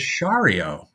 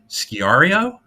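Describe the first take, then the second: First: The name begins with a 'sh' sound. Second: The name does not begin with a 'sh' sound. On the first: The speaker calls it right. "told me it was Shario" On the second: The speaker calls it wrong. "Now I said, Sciario? And he went, eh"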